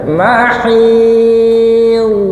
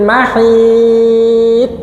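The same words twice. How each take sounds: First: The final consonant trails on softly. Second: The final consonant stops abruptly. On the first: The speaker calls it right. "Ekornya memanjang" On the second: The speaker calls it wrong. "Biasanya kan ngoten ya"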